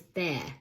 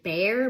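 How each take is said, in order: First: The R after the vowel is dropped. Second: The R after the vowel is pronounced.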